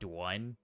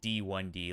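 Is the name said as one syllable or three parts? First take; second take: one syllable; three parts. First: The name is said as a single syllable. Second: The name is said as three separate parts. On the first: "Or you can pronounce it like Dwan" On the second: "it's pronounced like D one D, like the first one"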